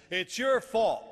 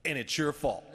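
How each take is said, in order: First: High, loud retold coach's accusation; emphatic accusation. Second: Loud retold accusation at normal pitch; pointed blame. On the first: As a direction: hammer the blame home, much louder. Coach repeats the blame louder. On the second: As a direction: turn the blame on him bluntly. Coach turns on him.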